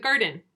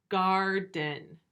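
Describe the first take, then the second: First: Said in the usual way. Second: Garden split into "gar", pause, "den"; break between syllables. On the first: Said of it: "Can you hear the difference?". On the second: Shown as a demonstration. Teacher letting pupils hear the break, word split. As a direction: break Garden into two even beats. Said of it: "hear that kind of break in the word parts".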